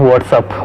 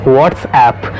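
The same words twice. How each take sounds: First: "WhatsApp" as WOT-sup; reduced "sup" ending "WhatsApp"; wrong pronunciation. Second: "WhatsApp" as WOTS-app; correct pronunciation. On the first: Teacher quotes the mistake, "WhatsApp" as what's-up. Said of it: "which is not correct pronunciation". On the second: Teacher gives the fix, "WhatsApp" ending in clear "app". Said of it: "Correct pronunciation is". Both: Shown as a demonstration.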